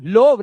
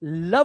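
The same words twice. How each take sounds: First: लोव with a long o, "lohv"; wrong vowel. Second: लव with a short uh, "luhv"; correct vowel. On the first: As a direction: show the mistake, लोव rhyming with stove. (लोव में ओ की लंबी आवाज़) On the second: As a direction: say लव rhyming with dove. (लव में छोटी अ की आवाज़) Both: Shown as a demonstration. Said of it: "लोव नहीं करते बेटा".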